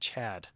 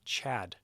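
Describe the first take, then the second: Both takes have the same delivery.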